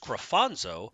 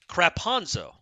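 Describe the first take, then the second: First: The middle consonant is an f sound. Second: The middle consonant is a p sound. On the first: The speaker calls it right. "I'm pretty sure it's Crafonzo" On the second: The speaker calls it wrong. "He didn't know how to pronounce the name"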